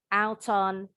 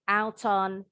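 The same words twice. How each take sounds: First: The t is pronounced clearly and crisply. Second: The same.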